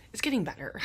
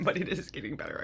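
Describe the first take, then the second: First: Hushed reassurance. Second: "is" pressed firmly in "but it is getting better"; stress on is. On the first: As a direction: murmur it to yourself like a hope. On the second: Promising listeners she's healing, firm stress on "is". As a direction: insist on "is" to convince them. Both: Real, not acted. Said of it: "I say that all the time".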